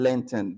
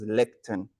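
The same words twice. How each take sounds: First: "lenten" with an n in the middle, len-ten; mispronunciation. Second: "lectern" with a k sound, lek-tern; correct pronunciation. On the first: Retold or imitated. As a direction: quote the wrong word "lenten", no k sound. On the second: Shown as a demonstration. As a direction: say "lectern" with a clear k before the t. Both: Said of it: "The word is lectern".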